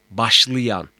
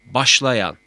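First: "başlayan" said as başlıyan; colloquial narrowed vowel. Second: "başlayan" with a full a before y; written-form vowel. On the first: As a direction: turn the la to lı in "başlayan". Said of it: "Yanlış yazım". ("başlayan", başlıyan gibi) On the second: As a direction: keep the la open in "başlayan". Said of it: "Doğru yazım". ("başlayan", daralmamış a ile) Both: Shown as a demonstration.

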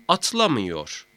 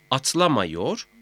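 First: "atlamıyor" with ı before -yor, falling; narrowed vowel. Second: "Atlamıyor" said as atlamayor, rising; unnarrowed A vowel. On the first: ("atlamıyor", daralmış ı ile) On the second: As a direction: keep an a before -yor in "Atlamıyor". ("Atlamıyor", ı yerine a ile) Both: Shown as a demonstration. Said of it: "mameyi de etkiler".

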